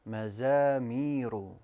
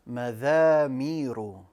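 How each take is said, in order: First: The second consonant sounds like a 'z'. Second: The second consonant sounds like 'th' in 'this'. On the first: The speaker calls it right. "Correct pronunciation" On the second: The speaker calls it wrong. "I pronounced the za as a dhal"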